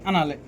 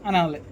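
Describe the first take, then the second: No difference in how they are said.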